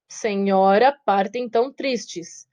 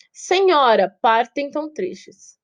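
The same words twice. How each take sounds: First: Slow, measured reading of the verse; syllable scansion. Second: Said in the usual way. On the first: Shown as a demonstration. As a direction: count out the syllables slowly. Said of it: "oito sílabas gramaticais e sete sílabas métricas". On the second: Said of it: "sete sílabas métricas".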